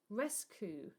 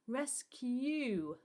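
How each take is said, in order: First: The second vowel is a plain 'oo' sound. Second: The second vowel is a 'yoo' sound. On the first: The speaker calls it wrong. "that's not a word" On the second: The speaker calls it right. "There's a U sound"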